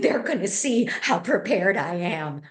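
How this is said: It sounds anxious and agitated.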